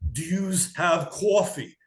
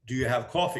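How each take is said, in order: First: It is said in a heavy New York accent. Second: It is said in a mild New York accent. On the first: It is a joke about exaggerating the accent. "I should have leaned into the New Yorker" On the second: The listener did not understand it. "my New York accent caused me an issue"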